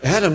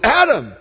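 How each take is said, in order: First: It is called softly and gently. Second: It is called with urgent force.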